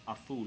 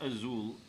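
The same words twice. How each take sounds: First: The z is said as a soft th sound. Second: The z is said as a buzzing z sound. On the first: The speaker calls it right. "you pronounce the letter Z as a T H sound" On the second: The speaker calls it wrong. "It's not azul"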